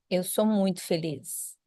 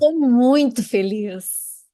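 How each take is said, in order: First: It is said plainly, without much energy. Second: It is said with more energy and feeling.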